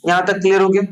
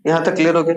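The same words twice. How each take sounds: First: clear हो गया asked with a rising, questioning tune; teacher asks the class if it is clear; checking question. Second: Teacher answers his own question, assured; confirming statement. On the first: Teacher checks with students, asking if it's clear. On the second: Teacher confirms to students that it is clear. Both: Real, not acted.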